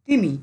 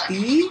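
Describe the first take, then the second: First: Quick, unbroken তিমি; said fast. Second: তিমি stretched into তি and মি; slowly pronounced. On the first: Teacher showing students that syllables hide, said fast. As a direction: say তিমি at speed in one go. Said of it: "স্পিডে উচ্চারণ করলে". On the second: Teacher showing students how to find syllables, slowly pronounced. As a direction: draw out each syllable of তিমি. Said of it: "ধীরে ধীরে উচ্চারণ কর". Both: Shown as a demonstration.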